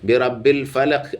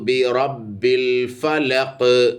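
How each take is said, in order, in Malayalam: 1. അവസാന വ്യഞ്ജനം പ്രതിധ്വനിയില്ലാതെ പെട്ടെന്ന് നിൽക്കുന്നു. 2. അവസാന വ്യഞ്ജനം പ്രതിധ്വനിയോടെ ഉച്ചരിക്കപ്പെടുന്നു. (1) "അധികം ആളുകളും ഓതുന്നത് ... അങ്ങനെയല്ല" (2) "അങ്ങനെ ഓതേണ്ടത്"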